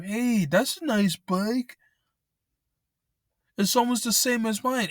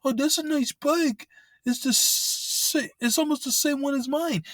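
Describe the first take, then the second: First: Butter him up like a would-be thief; sly scammer. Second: Much higher, sing-song fake compliment; exaggerated falsetto mockery of a bike thief's flattery; mocking scammer. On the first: Retold or imitated. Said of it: "talking to him". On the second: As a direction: ham up the thief's sweet-talk. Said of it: "scammers or fucking thieves say that shit".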